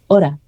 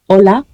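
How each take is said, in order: First: The middle consonant is an R sound. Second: The middle consonant is a clear L sound.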